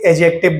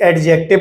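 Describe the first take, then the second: First: No d sound is heard before the j. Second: A d sound is heard before the j. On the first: "उस डी को silent कर दिया जाता" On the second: "कुछ बच्चे इसे एडजेक्टिव बोलते हैं"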